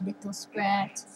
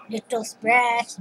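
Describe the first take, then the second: First: Whispered, slow. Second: Said in the usual way. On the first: Shown as a demonstration.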